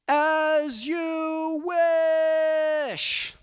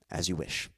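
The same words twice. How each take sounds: First: The phrase is yelled loudly. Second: The phrase is said gently and nicely. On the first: "That's why I yelled it like that" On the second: "he says it nice"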